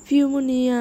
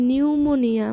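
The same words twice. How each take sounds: First: ফিউমোনিয়া said with the silent p sounded as f; ফিউমোনিয়া with a wrongly voiced p; mistaken pronunciation. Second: নিউমোনিয়া said with a silent p, starting on n; নিউমোনিয়া, p left silent; corrected pronunciation. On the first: Real, not acted. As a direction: misread ফিউমোনিয়া, voicing the p as f. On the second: Shown as a demonstration. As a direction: fix it to নিউমোনিয়া with no p sound. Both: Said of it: "এই পিটা উচ্চারিত হয় না".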